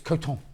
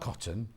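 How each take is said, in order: First: It is pronounced differently from the fabric word. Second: It is pronounced like the everyday fabric word. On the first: The speaker calls it right. "it's coton" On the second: The speaker calls it wrong. "It's not cotton"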